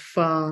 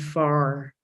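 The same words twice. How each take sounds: First: The final R sound is not pronounced. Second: The final R sound is clearly pronounced. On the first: "far without R at the end" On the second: "in my best American English accent where it is"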